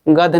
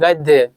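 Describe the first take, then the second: First: The word ends without a final 'ya' sound. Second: The word ends with a final 'ya' sound. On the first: The speaker calls it wrong. "इसको आपको गद्य नहीं कहना है" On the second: The speaker calls it right. "गा है, दा है, फिर हलंत है, फिर या है"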